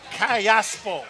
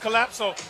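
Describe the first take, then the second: First: The name ends with the sounds 'laspo'. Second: The name ends with the sounds 'lapso'. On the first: The speaker calls it right. "get it right. Callaspo" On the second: The speaker calls it wrong. "I was first saying Collapso"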